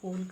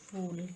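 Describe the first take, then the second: First: The word begins with an aspirated p sound. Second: The word begins with an f sound. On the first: The speaker calls it right. "फ का उच्चारण फ की तरह नहीं करना चाहिए" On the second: The speaker calls it wrong. "फूल की तरह किया जाना अशुद्ध है"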